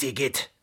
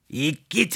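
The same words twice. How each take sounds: First: A quieter, falling after-shudder of disgust; softer disgust. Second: A disgusted cry that rises at the end. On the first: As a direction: mutter it again as you turn away. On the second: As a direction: recoil from something gross. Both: Acted. Fox disgusted by his handkerchief.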